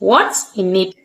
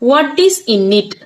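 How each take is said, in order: First: 'Is' is shortened and joined onto 'what'. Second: 'Is' is said as a separate full word. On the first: "வாட்ஸ் in it வாட்ஸ் in it அதுல என்ன இருக்கிறது" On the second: "வாட் இஸ் in it அதுல என்ன இருக்குது அப்படின்னு கூட சொல்லலாம்"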